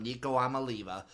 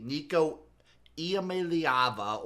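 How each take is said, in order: First: Amaliva said quickly as ah-muh-LEE-vuh, four easy syllables; simplified nickname pronunciation. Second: Nico Iamaleava said slowly, every syllable spelled out: ee-ah-mah-leh-AH-vah; careful full pronunciation. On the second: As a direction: Iamaleava with a clear ee-ah at the start, drawn out. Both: Shown as a demonstration. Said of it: "or as we're gonna call him".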